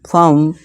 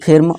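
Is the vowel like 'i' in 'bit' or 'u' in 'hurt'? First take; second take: hurt vowel; bit vowel. First: The vowel sounds like 'u' in 'hurt'. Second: The vowel sounds like 'i' in 'bit'. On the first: The speaker calls it right. "फर्म फर्म फर्म" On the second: The speaker calls it wrong. "ना कि फिर्म"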